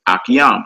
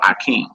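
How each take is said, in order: First: The word is said as Akiyam. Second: The word is said as Akeem. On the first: The speaker reads the word without using the vowels. "they don't feel comfortable using vowels" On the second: The speaker reads the word using the vowels. "instead of Akeem"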